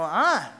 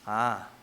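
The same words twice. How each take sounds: First: It sounds happy and pleased. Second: It sounds dejected and disappointed.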